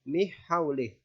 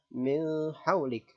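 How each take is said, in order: First: The n sound is dropped into the h. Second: The n sound is muffled and indistinct. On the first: "Atau dimasukkan ke huruf ha" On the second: "Jangan dibaca samar"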